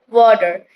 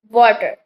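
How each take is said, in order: First: The middle consonant is a quick D sound. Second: The middle consonant is a clear, hard T. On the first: "in actually it sounds like water ... The sound T turns into D" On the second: "Like we say this word like water"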